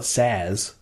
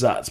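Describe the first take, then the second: First: The name is said as Saz. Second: The name is said as Zatz. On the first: Some people use this pronunciation. "some people do call it Saz" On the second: This is the usual pronunciation. "the way we learn to pronounce it is Zatz"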